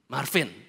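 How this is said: It sounds like a weary complaint.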